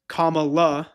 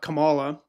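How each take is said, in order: First: The stress is on the first syllable. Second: The stress is on the second syllable. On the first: The speaker calls it right. "pronounce her name correctly" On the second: The speaker calls it wrong.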